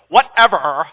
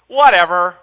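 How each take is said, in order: First: It is said in a dismissive, teenage way. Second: It is said in a plain, neutral way. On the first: The speaker calls it right. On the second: The speaker calls it wrong.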